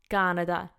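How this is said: It is said with an Italian accent. "In Italian you would say Canada"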